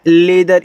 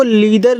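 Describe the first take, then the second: First: "लेदर" with a short ay in the first syllable; correct reading demo. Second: "लीदर" with a long ee in the first syllable; wrong reading demo. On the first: Teacher giving students the reading, "लेदर" with an ay vowel. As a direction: say "लेदर" with le, never lee. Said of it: "ये आपका हो जाएगा लेदर". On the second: Teacher warning students off a misreading, "लीदर" with long ee. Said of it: "इसको लीदर नहीं पढ़ना है". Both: Shown as a demonstration.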